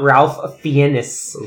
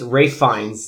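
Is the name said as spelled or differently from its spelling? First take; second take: as spelled; differently. First: The name is said as it is spelled. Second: The name is not said as it is spelled. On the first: The speaker calls it wrong. "not Ralph Fiennes. ... if you read it, it's Ralph Fiennes" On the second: The speaker calls it right. "But it's Ralph Fiennes"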